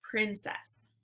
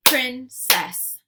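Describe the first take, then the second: First: Said in the usual way. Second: Princess as loud "prin... cess"; split into syllables. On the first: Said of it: "swipe to say the whole word". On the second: Shown as a demonstration. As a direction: punch out both halves of Princess separately. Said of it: "give you two parts to a word".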